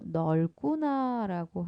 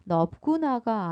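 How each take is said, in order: First: The first syllable ends with an l sound. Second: The first syllable ends with a b sound. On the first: The speaker calls it right. "리을 비읍은 리을로 바뀌어서 소리 납니다" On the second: The speaker calls it wrong. "넓구나가 아니고"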